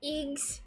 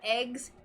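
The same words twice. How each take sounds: First: It is said with a New Zealand accent. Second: It is said with an American accent.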